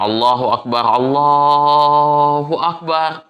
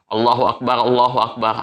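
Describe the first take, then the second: First: It is said slowly and drawn out. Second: It is said quickly and briskly.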